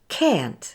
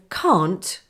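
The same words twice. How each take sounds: First: It is said in an American accent. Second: It is said in a British accent. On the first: "American English, which is can't" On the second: "which is British English"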